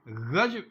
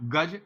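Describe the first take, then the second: First: It begins with a throaty fricative gh sound. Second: It begins with a plain hard g stop. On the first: The word means a yard for measuring cloth. "गज उच्चारण होगा तो कपड़ा नापने का पैमाना है" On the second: The word means elephant. "संस्कृत का तत्सम शब्द गज हाथी को कहते हैं"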